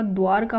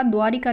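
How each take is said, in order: First: द्वार का run together with no i after r; correct form. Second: द्वारिका with ri in the middle; incorrect form. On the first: Teacher giving the correction, द्वार का without i. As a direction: say द्वार का as one word, dwaar-kaa. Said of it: "इ की मात्रा नहीं आती". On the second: Teacher rejecting the misspelling, द्वारिका with ri. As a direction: say द्वारिका as dwaa-ri-kaa. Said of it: "द्वारिका नहीं होता". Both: Shown as a demonstration.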